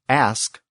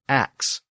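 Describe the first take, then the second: First: The word ends with an s sound then k. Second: The word ends with a k sound then s. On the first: "ask often becomes ax" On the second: "the S K sound became a K S sound"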